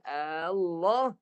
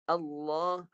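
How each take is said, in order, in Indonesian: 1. Vokal pembukanya dipanjangkan. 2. Vokal pembukanya pendek setelah hentian yang ditahan. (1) "Bila panjang Allah, dia jadi pertanyaan" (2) "tahan dulu suara hamzah"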